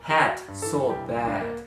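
The vowels sound like the English 'a' in 'hat'. The speaker calls it right. "hat so bad にするとバッチリネイティブの人に伝わります"

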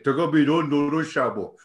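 It is said in a put-on bear voice.

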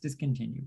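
The word is said as one smooth unit. "What's the word?"

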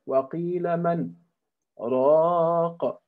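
A small pause separates man from raq.

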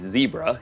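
The word is said in an American way. The speaker calls it wrong.

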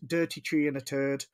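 It is said in an Irish accent.

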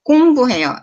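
The pitch moves up and down across the word. It sounds like a foreigner speaking. The speaker calls it wrong. "It's like a foreigner's"

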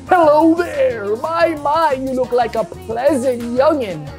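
It is said in a put-on old man voice.

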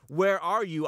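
It is said in a stern, threatening tone. The caller is coming to punish the listener. The speaker calls it wrong. "He's saying it kind of with a tone like"

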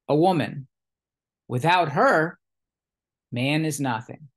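There are pauses after 'woman' and after 'her'.

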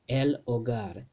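A glottal stop separates the l and o. "we put that glottal stop between this L and the O"

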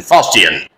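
It is said in a British accent. "Fustian is the British pronunciation"

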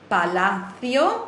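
The c is said with a lisped th sound. This is the pronunciation used in Spain. The speaker calls it wrong. "Ich habe mir gerade das Lispeln wieder angewöhnt"

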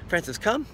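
The command is said with lively, upbeat energy. The dog is encouraged and motivated. The speaker calls it right. "I'll add a little more juice to most of the commands"

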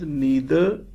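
The word is said the American English way. "But in America, it is pronounced as neither"

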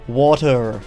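The word is said in an American accent. "Americans say water"

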